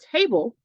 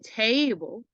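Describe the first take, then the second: First: The word is said at a normal speed. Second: The word is said slowly and stretched out.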